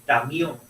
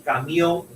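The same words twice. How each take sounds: First: Tamión with a t in place of the c sound; child's misspeaking. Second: Said in the usual way. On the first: Shown as a demonstration. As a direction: say tamión, swapping the k for a t. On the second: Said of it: "En vez de decir".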